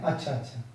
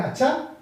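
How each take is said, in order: First: Low, soft अच्छा, अच्छा with falling tune; accepting अच्छा, अच्छा, dropping away quietly; agreeing. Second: High अच्छा with a questioning rise; doubting अच्छा, lifted at the end; opposing. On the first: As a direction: murmur अच्छा, अच्छा in support. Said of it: "किसी का समर्थन कर रहे हैं". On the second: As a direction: challenge with a rising अच्छा. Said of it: "किसी का विरोध कर रहे हैं". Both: Shown as a demonstration.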